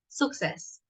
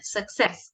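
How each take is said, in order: First: The stress is on the first syllable. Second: The stress is on the second syllable. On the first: The speaker calls it wrong. "not success" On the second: The speaker calls it right. "el acento al final"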